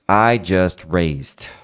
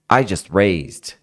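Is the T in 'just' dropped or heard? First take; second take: heard; dropped. First: Said slowly with the T clearly pronounced. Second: Said fast with the T dropped entirely. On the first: "Se eu for aumentando a velocidade" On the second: "o T vai desaparecendo"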